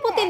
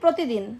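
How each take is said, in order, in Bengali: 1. শব্দটি ছোট করে বলা হয়েছে, 'র' আর একটি অক্ষর বাদ দিয়ে। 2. শব্দটি পুরোটা বলা হয়েছে, সব অক্ষর সহ। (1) "তুমি যে আমাকে বলো আম্মু পুতিন" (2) "না প্রতিদিন"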